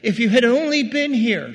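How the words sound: The voice sounds frustrated and sharp. She blames him for not coming. "She's frustrated"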